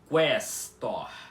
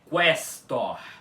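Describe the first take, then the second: First: The u after the q is pronounced. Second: The same.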